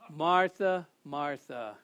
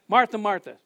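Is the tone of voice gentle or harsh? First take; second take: gentle; harsh. First: The name is said in a gentle, caring tone. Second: The name is said in a harsh, scolding tone. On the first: The speaker is concerned for her and loves her. The speaker calls it right. "it's how his tone of voice. That was Jesus being concerned for her" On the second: The speaker is irritated and rebuking her. The speaker calls it wrong. "It wasn't like"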